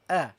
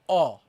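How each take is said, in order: First: The vowel sounds gentle and light. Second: The vowel sounds heavy and rounded. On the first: The speaker calls it right. "The sound is very gentle, okay, and very light" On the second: The speaker calls it wrong. "don't say oh"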